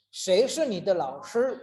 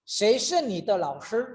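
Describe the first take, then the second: The two takes are said the same way.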